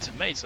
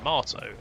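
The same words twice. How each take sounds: First: Tomato is said with an American pronunciation. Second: Tomato is said with a British pronunciation. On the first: "Tomato is the American way" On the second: "Tomato is the uh, British way"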